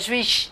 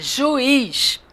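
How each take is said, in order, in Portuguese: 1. As duas vogais deslizam juntas numa mesma sílaba. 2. As duas vogais são ditas em sílabas separadas. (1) "Não é juiz" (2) "É juiz"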